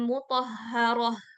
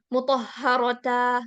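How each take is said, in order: First: The word ends with a soft h sound. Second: The word ends with a full ta syllable. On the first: The speaker calls it right. "Jadi ha, bukan mutahharata" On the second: The speaker calls it wrong. "kita nggak baca dengan mutahharata"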